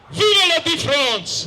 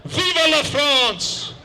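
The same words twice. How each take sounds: First: Even higher, slower, louder Vive la France; louder ringing cry. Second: Slow, drawn-out, higher cry of Vive la France; yelled patriotic cry. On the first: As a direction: throw Vive la France out to the sky. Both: Retold or imitated. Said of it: "the Frenchman yelled".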